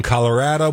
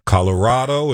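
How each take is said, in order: First: Colorado as "colo-RAD-o", the local way; Utah-style Colorado. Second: Colorado as "colo-RAH-do"; old-style Colorado. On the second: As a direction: say Colorado with an open "ah" in the third syllable. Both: Shown as a demonstration. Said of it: "Colorado has become Colorado".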